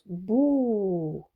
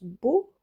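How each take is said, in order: First: The vowel after the consonant is long. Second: The vowel after the consonant is short. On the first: "si on lui ajoute la voyelle longue, on prononce bou" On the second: "ici on le prononce beau"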